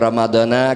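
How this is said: The final vowels are open 'a' sounds. The speaker calls it right. "dibaca Ramadana karena isim ghair munsharif"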